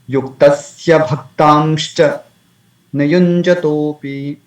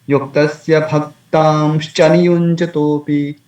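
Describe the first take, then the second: First: There is a pause after Bhaktamscha. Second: It runs on with no pause after Bhaktamscha. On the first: The speaker calls it right. "We may say" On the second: The speaker calls it wrong. "That's again is undesirable"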